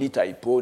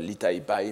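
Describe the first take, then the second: First: The name ends with an 'o' vowel. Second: The name ends with an 'ai' vowel. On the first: This is the old classical reading. "la prononciation classique plutôt qui est bien attestée, ancienne, comme l'Itaipo" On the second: This is the modern reading. "et pas l'Itaipai maintenant, comme on dit"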